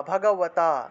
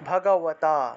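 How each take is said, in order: No difference in how they are said.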